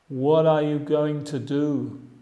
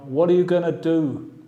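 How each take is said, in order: First: Going to is said in full. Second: Going to is reduced to gonna. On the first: This is the standard form. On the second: This is informal English.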